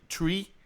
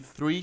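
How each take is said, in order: First: It starts with a plain t sound. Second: It starts with a th sound. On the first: The speaker calls it wrong. "o tree, tree, de three" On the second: The speaker calls it right. "de three"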